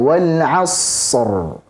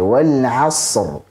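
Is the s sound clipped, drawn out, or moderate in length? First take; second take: drawn out; moderate. First: The s sound is held far too long. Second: The s sound has a moderate length. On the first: The speaker calls it wrong. "Jangan juga terlalu panjang aliran suaranya" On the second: The speaker calls it right. "Jadi agak biasa saja"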